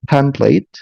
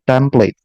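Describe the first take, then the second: First: The first t has a puff of air. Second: The first t has no puff of air. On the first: "if we have the sound like this template in inner circle English" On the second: "substitute the the aspirated sound with an unaspirated one. So it's gonna be template"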